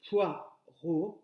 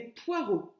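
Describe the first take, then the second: First: "Poireau" split into poi and reau; syllable by syllable. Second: Said in the usual way. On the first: Shown as a demonstration. Teacher counting two syllables for pupils, "Poireau" in two beats. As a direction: put a clear gap inside "Poireau", lifting at the end. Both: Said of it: "deux syllabes".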